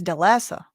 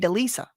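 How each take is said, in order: First: The middle vowel is a short 'eh' sound. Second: The middle vowel is a long 'ee' sound. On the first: "usually E A is like eh anyway, so I think it's Delesa" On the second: "But wouldn't that be L I S A?"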